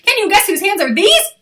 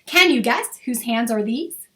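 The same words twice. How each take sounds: First: It is said very fast. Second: It is said a little faster.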